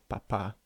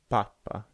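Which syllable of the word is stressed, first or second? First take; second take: second; first. First: The stress is on the second syllable. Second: The stress is on the first syllable. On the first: The speaker calls it right. "the stress in each case is on the second syllable" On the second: The speaker calls it wrong. "you can't say papa"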